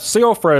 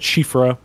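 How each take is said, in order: First: The name begins with a plain 's' sound. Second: The name begins with an 'sh' sound. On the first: The speaker calls it wrong. "is the way I pronounced it" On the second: The speaker calls it right. "is the way it's actually supposed to be"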